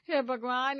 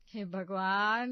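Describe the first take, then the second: First: "हे" punched hard and loud, "भगवान" clipped short after it; loud exclamation. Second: "हे भगवान" drawn out slowly and loud, rising at the end of "भगवान"; dismayed cry to God. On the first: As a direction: hit "हे" hard, then rush "भगवान". Mother-in-law scolds over laundry. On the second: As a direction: stretch "भगवान" into a long, loud, rising wail. Mother-in-law sees ruined saris. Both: Acted.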